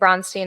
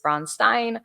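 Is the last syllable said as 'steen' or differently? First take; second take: steen; differently. First: The last syllable is said as 'steen'. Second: The last syllable is not said as 'steen'. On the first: It follows a regional dialect. The speaker calls it wrong. "I say Bronstein" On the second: It is the standard form. The speaker calls it right. "the proper pronunciation is Bronstein"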